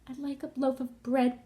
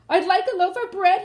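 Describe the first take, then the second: First: It is said softly and quietly. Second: It is said loudly, booming.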